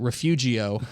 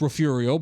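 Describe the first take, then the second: First: The g in the middle is sounded. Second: The g in the middle is silent. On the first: The speaker calls it wrong. "it's with a G, and so I pronounce it Refugio on the air" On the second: The speaker calls it right. "partner, that's uh, that's Refugio"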